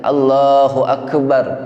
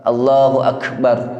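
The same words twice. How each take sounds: Both takes have the same delivery.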